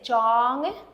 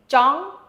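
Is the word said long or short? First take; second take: long; short. First: The word is drawn out and longer. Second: The word is said short and fast. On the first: It means to tie something. "this actually means to tie something" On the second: It means to want. "it means to want. So it's very important that it's fast"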